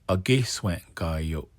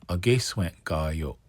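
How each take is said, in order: No difference in how they are said.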